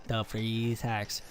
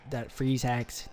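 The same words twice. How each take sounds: First: Slow, softer, savoring the freeze hacks; drawn-out sarcastic repeat. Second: Said in the usual way. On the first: Acted. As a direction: drag out the freeze hacks in mock disbelief. Repeats phrase, second drawn out.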